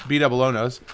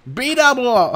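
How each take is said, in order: First: Said in the usual way. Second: Much higher attempt at a character voice; failed B double O voice. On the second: Shown as a demonstration. Failed catchphrase voice, admitted right after. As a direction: try the catchphrase voice and miss. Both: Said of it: "I can't do a B double O voice".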